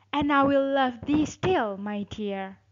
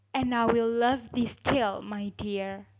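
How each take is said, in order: The two takes are said the same way.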